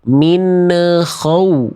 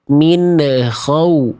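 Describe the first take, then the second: The two takes are said the same way.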